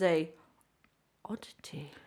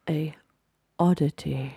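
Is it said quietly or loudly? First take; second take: quietly; loudly. First: It is said at a quiet, normal volume. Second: It is said loudly.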